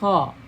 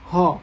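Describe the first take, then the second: First: A harsh sound with strong friction in the throat. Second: An open breathy sound with almost no throat friction. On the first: The speaker calls it right. "padahal seharusnya itu kha, jadi memang harus ada gesekan" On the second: The speaker calls it wrong. "Kelirunya itu adalah terlalu sedikit uh, gesekan dengan tenggorokan kita"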